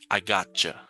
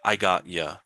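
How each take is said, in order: First: The phrase ends with a 'cha' sound. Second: The phrase ends with a 'ya' sound. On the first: "Or sometimes it'll be C H A" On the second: "so I got and then Y A"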